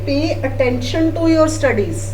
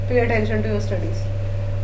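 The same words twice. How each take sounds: First: It is said firmly, with strong emphasis. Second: It is said in a relaxed, casual way. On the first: The listener will take it seriously. The speaker calls it right. "तब आपको होगा" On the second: The listener will not take it seriously. The speaker calls it wrong. "अगर हम casually बोले"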